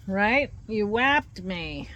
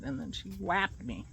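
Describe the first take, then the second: First: Sickly sweet. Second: Said in the usual way. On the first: Acted. Scolding the dog playfully.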